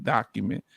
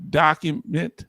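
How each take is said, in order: First: Document. dropped much softer and lower, falling to a close; fading emphasis. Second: Document, hit firm as the first of three; emphatic word. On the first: Host closes his advice to veterans, soft falling document. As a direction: let the last document. sink quietly. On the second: Host advises veterans seeking awards, firm emphatic Document,. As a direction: stamp Document, like a rule. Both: Shown as a demonstration. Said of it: "I have three words".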